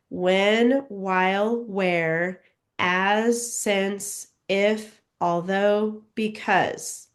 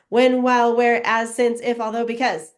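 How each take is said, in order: First: The words are read at a slow pace. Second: The words are read at a very fast pace.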